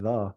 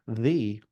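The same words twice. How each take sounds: First: The word has a reduced, unstressed vowel. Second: The word has a full, stressed vowel. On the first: "it's often said the in running text" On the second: "it should be the"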